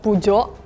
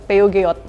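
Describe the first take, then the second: First: It is said the French way. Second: It is said as read in Indonesian.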